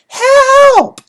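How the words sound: It is yelled in a high register.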